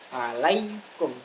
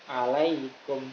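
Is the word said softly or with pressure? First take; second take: pressure; softly. First: The word is said with heavy pressure. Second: The word is said lightly and softly. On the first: The speaker calls it wrong. "Nggak boleh ada penekanan" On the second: The speaker calls it right. "Bacanya harus alaikum"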